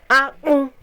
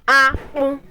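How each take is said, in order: Both takes have the same delivery.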